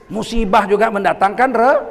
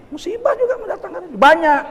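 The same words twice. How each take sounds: First: Said in the usual way. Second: Restarts the line high, laughing. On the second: Shown as a demonstration. Preacher laughs at his own slip before the congregation, laughing. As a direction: breaks into laughter mid-phrase.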